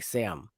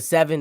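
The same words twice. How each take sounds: First: "Sam" for seven, middle consonant swallowed; St. Louis pronunciation. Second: Said in the usual way. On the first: Retold or imitated. Host imitating Midwesterners instead of seven, "Sam" in one syllable. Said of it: "they be like". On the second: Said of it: "instead of seven".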